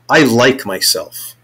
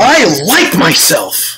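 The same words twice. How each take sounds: First: It is said with low intensity. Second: It is said with high intensity.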